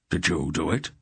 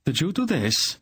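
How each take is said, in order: First: Firm, level question, rising on it; old sorcerer demanding an answer from Geryon. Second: Much higher, startled shout. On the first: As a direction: press for an answer. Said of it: "Belgarath demanded". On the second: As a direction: yell it over the storm. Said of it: "Silk shouted at Belgarath". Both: A narrator's reading.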